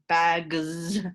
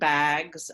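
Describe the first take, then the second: First: The ending adds an extra syllable. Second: The word is said as one syllable. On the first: The speaker calls it wrong. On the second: The speaker calls it right.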